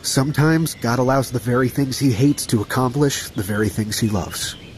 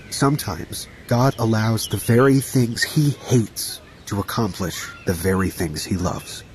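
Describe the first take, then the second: First: It is said at normal speed. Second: It is said slowly.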